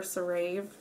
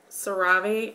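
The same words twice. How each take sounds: First: CeraVe ending like "rave"; alternative pronunciation. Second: CeraVe ending in "ah-vay"; alternative pronunciation. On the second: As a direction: say CeraVe as "suh-RAH-vay". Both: Shown as a demonstration. Offers two pronunciations of brand.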